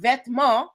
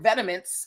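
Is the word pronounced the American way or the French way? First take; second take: French; American. First: It is pronounced with a French accent. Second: It is pronounced with an American accent.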